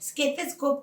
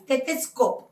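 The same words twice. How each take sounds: First: An 'sk' sound replaces the 'st' sound. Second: The word is said with a clear 'st' sound. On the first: The speaker calls it wrong. "ఎస్కే కాదు ఎస్టీ" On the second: The speaker calls it right. "ఎస్కే కాదు ఎస్టీ"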